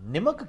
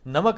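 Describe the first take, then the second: First: The first vowel sounds like 'i'. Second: The first vowel sounds like 'a'. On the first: The speaker calls it wrong. "ये निमक क्या होता है?" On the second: The speaker calls it right. "नमक हलाली।"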